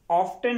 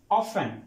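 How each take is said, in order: First: "ऑफ्टन" with the t sounded; mispronounced word. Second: "ऑफन" as off-en, no t; correct pronunciation. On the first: Teacher rejects the spelt reading for students, mispronounced. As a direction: say "ऑफ्टन" as off-ten, t pronounced. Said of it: "ऑफ्टन नहीं होता". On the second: Teacher gives students the correct word, silent t. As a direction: drop the t in "ऑफन". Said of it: "ये word होता है". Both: Shown as a demonstration.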